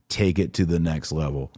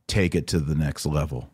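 No difference in how they are said.

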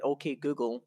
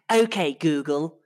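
First: Said in the usual way. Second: Put-on English accent, slow and louder; fake English accent. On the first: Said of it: "where my double O sounds come out like an". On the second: Shown as a demonstration. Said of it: "put on, like, a fake English accent".

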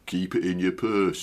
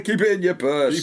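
First: Broad Yorkshire, low and laughing; Yorkshire accent. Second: High, louder broad Yorkshire; Yorkshire accent. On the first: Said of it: "with a good broad Yorkshire accent". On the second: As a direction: push the Yorkshire vowels. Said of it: "it has more power". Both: Acted.

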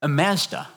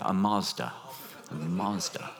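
First: Mazda with a flat short a, MAZ-da; Australian Mazda. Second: Mazda with a broad ah, MAHZ-da; American Mazda. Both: Shown as a demonstration. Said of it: "or as they say in America".

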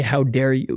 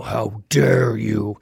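First: Said in the usual way. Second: Low, drawn-out booming reproach; angry bellow. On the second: Acted. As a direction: bellow it slowly from the clouds, mock-angry. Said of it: "doesn't billow angrily from the clouds and go".

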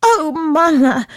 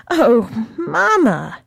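First: High, drawn-out excited cry; slow breathless eager call; blurting out. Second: Slow pleading repeat; blurting out, calmer. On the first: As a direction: burst out with the news. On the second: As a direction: ease off a little on the repeat. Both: Acted. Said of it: "blurting out".

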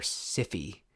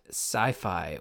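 First: Sci-Fi said as "siffy"; Sci-Fi with both vowels short, like "siffy"; alternative pronunciation. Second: Said in the usual way. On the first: Shown as a demonstration. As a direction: pronounce Sci-Fi to rhyme with "iffy". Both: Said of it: "depending on how you wanna pronounce that".

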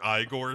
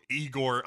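First: Igor said EYE-gor; second pronunciation of Igor. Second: Igor said EE-gor; first pronunciation of Igor. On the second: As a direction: say Igor with a long E at the front. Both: Shown as a demonstration. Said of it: "a real Igor Igor situation".

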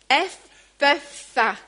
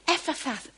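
First: Ephphatha drawn out slowly, syllable by syllable; slow, deliberate Ephphatha; careful Ephphatha. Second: Ephphatha said quickly and clipped short; quick, unsure Ephphatha; first try at Ephphatha. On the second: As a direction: toss off Ephphatha at speed. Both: Shown as a demonstration. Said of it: "how do you say it?".

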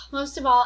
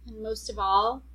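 First: Louder, punched restart after a sigh; emphatic restart. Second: Said in the usual way. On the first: Real, not acted. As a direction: come back in strong.

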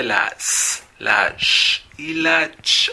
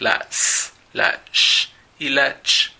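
First: "la S, la sh y la ch" slow, each sound held and set apart, sh hushed, ch short and sharp; pronunciation demo. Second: "la S, la sh y la ch" slow and hushed, only the hissing sounds breathed out; pronunciation demo. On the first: Teacher introducing the lesson's three sounds, slow careful demo. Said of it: "cómo pronunciar correctamente el sonido de". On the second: Teacher showing the phonetic symbols, slow careful demo. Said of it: "los símbolos de estos tres sonidos". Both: Shown as a demonstration.

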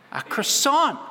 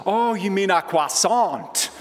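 First: "croissant" said the Aussie way, kruh-SONT with a hard r; the Aussie customer repeats her order, "croissant" as kruh-SONT with a strong r. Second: "croissant" said the French way, kwah-SAHN with no r sound, slow; a slow, smug correction, "croissant" as kwah-SAHN. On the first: Aussie tourist ordering in a Paris pastry shop, "croissant" said kruh-SONT. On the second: French shop guy correcting the Aussie tourist, slow, "croissant" as kwah-SAHN. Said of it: "And he said". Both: Retold or imitated.

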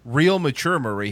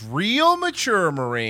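First: Said in the usual way. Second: Slow, stretched "Real mature, Marie" with a dry sarcastic fall; drawn-out sarcasm. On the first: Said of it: "he didn't say". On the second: Shown as a demonstration. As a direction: drag out "Real" slowly, dripping with sarcasm. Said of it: "He goes".

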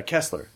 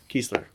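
First: Kessler with a short e, as in "mess"; short-e pronunciation. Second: Kessler with a long ee, as KEESS-ler; long-ee pronunciation. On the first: Recalling an actor's name for co-hosts, short-e Kessler. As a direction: say "Kessler" with the first syllable KESS. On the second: Correcting an actor's name for co-hosts, long-ee Kessler. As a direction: say the first syllable of "Kessler" like "geese". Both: Shown as a demonstration. Trying two pronunciations of a surname.

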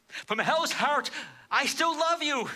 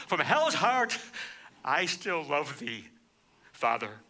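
First: Climactic cry. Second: Tender vow. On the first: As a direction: lift it into a soaring, aching declaration. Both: Retold or imitated. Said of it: "In essence, he says".

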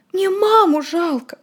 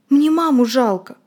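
First: Much higher, slow, tearful; crying. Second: Slow, tearful and a little higher; quiet crying. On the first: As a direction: sob out the words. Frightened boy crying. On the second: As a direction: say it through quiet tears. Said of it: "тихо плакал Володя". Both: Acted.

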